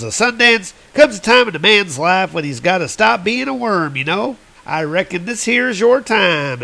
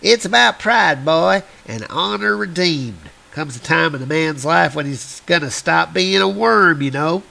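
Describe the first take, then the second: First: Higher, folksy cowboy henchman; drawling henchman. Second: Lightly voiced old-timer; a hint of grizzled prospector. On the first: Retold or imitated. Henchman quote. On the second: Old prospector repeats line.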